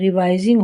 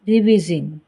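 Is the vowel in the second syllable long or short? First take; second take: long; short. First: The second syllable has a long 'eye' vowel. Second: The second syllable has a short 'ih' vowel. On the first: The speaker calls it right. "उसका उच्चारण रिवाइजिंग होता है" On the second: The speaker calls it wrong. "ना कि रिविजिंग"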